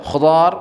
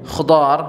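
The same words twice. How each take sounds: The two takes are said the same way.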